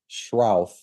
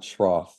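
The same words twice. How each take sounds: First: The vowel sounds like the one in 'shroud'. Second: The vowel does not sound like 'shroud'. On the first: The speaker calls it right. "it's Schroff" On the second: The speaker calls it wrong. "not Schroff"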